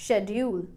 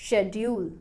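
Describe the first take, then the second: Both takes have the same delivery.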